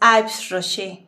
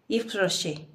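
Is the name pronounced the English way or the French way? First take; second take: English; French. First: The name is said with an English pronunciation. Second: The name is said with a French pronunciation. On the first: The speaker calls it wrong. "Jamás es Yves Rocher, porque Yves Rocher es en inglés" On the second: The speaker calls it right. "se pronuncia. Es francesa la marca"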